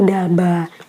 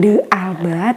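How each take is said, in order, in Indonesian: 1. Nama itu diucapkan sebagai dua suku kata. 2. Nama itu dipecah menjadi tiga suku kata. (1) "tapi Dalba" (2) "dibacanya bukan De Alba"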